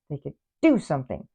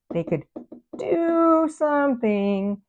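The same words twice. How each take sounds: First: Said in the usual way. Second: "do something" drawn out slow and high; stress on do something. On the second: Shown as a demonstration. Tarot reader urging the absent person, drawn-out high "do something". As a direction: stretch out "do something" much higher and slower.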